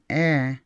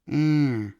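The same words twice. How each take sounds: First: The vowel is plain, not nasal. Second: The vowel is strongly nasal. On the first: "So instead of saying eh" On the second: "that E is strongly nasal"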